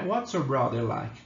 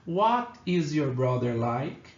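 First: "What's" run together as one quick syllable; casual contracted "What's". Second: "What is" said as two separate full words, slowly; "What is" pronounced fully, unhurried; full form what is. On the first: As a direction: squeeze "What's" into a single contracted word. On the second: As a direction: spell out "What is" without contracting. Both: Shown as a demonstration. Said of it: "qual que é a expressãozinha?".

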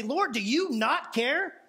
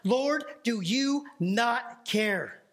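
First: Stretched out, rising at the end; put-upon plea to the Lord; slow, rising question; slow audacious challenge. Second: Drawn out, each word weighed; slow, heavy delivery of the famous line; slow dramatic reading. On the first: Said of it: "has the audacity to say". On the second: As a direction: linger on Lord like a lament. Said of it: "she says this famous line". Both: Retold or imitated.

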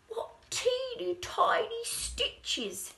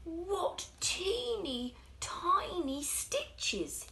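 First: High, slow, crying out in amazement; louder, more astonished than the first time; shoemaker's wonder, bigger. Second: High, slow, amazed little voice; shoemaker's wonder. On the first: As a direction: marvel even more at the stitches. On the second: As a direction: marvel at the tiny stitches, drawn out. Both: Acted. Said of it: "he said".

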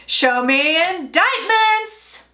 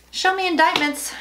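First: Slow, drawn-out host call; game show host. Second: Said in the usual way. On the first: Pretend. Playing Family Feud host for the cards, drawn out slowly. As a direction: stretch it like a game show host revealing the board. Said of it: "It's just like Family Feud".

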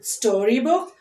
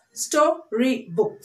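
First: Said in the usual way. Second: STORYBOOK slowly as sto, ry, book; three separate beats on STORYBOOK; split into syllables. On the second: Shown as a demonstration. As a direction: pause between each syllable of STORYBOOK. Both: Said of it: "Three syllable words".

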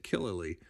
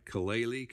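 First: Killali said KIL-uh-lee, short i in the first syllable; Killali, stress up front on KIL; settled pronunciation. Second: Kalali said kuh-LAY-lee, stress on the second syllable; trying out Kalali as kuh-LAY-lee; first guess at the name. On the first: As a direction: Killali as the correct version, falling. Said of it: "Maybe that's the per-, correct accent, Killali". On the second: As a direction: Kalali with a long ay in the middle. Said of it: "I wonder if I'm spelling that right". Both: Shown as a demonstration.

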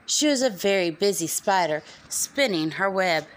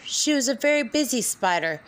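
First: Said in the usual way. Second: Whispering. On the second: A narrator's reading. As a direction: whisper the line. Repeated refrain, whispered once.

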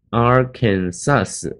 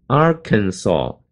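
First: "Arkansas" ending in a hissed "sus"; wrong ending demo. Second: "Arkansas" slowly as AR-kan-saw, silent final s; correct ending demo. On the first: Teacher showing what not to say, "Arkansas" with final s sounded. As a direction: say "Arkansas" slowly as AR-kan-SASS. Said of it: "不是念Arkansas". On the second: Teacher giving the right ending, "Arkansas" drawn out to saw. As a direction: end "Arkansas" on an open saw. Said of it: "读o的声音". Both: Shown as a demonstration.

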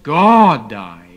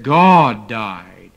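First: Loud, indignant outburst; shocked, furious retort; righteous indignation. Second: Said in the usual way. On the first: Retold or imitated. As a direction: explode at her in outrage. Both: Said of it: "And he exploded with righteous indignation".

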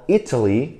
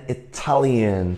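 First: "Italy" with the opening I stressed; stress on first syllable. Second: "Italian" stressed on TAL; stress on second syllable. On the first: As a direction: remind them, hitting the first syllable of "Italy". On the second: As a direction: remind them, hitting the TAL of "Italian". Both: Shown as a demonstration. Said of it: "所以记住咯".

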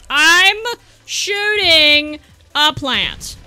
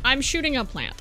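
First: Very slow, stretched "I'm ... shooting a plant"; drawn-out exasperation. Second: Said in the usual way. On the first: Real, not acted. Gamer shooting a plant, slow exasperated emphasis. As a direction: spell it out slowly, word by word. Same words exaggerated in exasperation.

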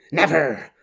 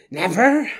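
First: Said in the usual way. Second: Never pushed higher with a rising end. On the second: Acted. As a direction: spit out Never, going up. Repeated vow building.

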